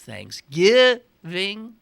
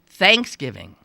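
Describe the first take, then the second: First: The stress is on the second syllable. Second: The stress is on the first syllable. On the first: This is how the speaker says it. "In my world, it's" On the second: This is how people in the local area say it. "people seem to say thanks Thanksgiving"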